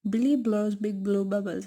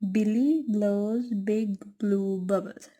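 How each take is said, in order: First: It is said fast. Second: It is said at a slow, normal pace.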